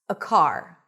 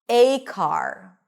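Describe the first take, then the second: First: The article is reduced to a weak schwa. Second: The article is stressed with a full diphthong. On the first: "Both of them are pronounced with a schwa when unstressed" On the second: "you're not going to use the schwa, you're going to use the a diphthong"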